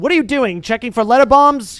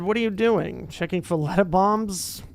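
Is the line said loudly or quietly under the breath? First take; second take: loudly; quietly. First: It is said loudly, like a shout. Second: It is said quietly, as a joke.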